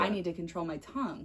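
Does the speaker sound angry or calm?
calm. The voice sounds calm and gentle. The speaker accepts the advice without resentment. "That's a totally different message"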